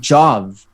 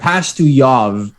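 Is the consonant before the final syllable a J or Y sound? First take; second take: J sound; Y sound. First: It has a J sound before the ending. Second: It has a Y sound before the ending. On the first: This is how the American player says it. The speaker calls it wrong. "he pronounces it Pastujov during games" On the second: This is the proper Slavic pronunciation. The speaker calls it right. "is the way you're supposed to pronounce it"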